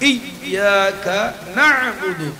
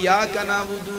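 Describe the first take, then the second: First: The y sound is doubled and held. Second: The y sound is single, not doubled. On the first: The speaker calls it right. "ইয়ার উপর তাসদীদ জবর" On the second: The speaker calls it wrong. "এটা ভুল করি"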